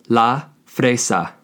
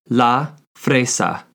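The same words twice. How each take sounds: The two takes are said the same way.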